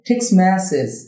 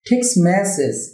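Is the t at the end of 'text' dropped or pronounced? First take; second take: dropped; dropped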